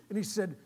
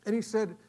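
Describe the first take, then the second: No difference in how they are said.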